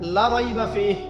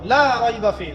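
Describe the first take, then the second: First: The vowel in the first word is cut short. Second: The vowel in the first word is drawn out long. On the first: The book certainly contains doubt. The speaker calls it wrong. "মত করেন নাই, লাই আপনি টানেন নাই" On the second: There is no doubt in the book. The speaker calls it right. "লাকে টানতে হবে"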